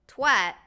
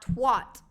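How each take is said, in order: First: "twat" rhyming with "cat"; twat with short A. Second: "twat" rhyming with "hot"; American twat pronunciation. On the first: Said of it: "say it the way you're saying it properly". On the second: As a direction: say "twat" with an open "ah", like "twot". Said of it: "like all Americans say". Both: Shown as a demonstration.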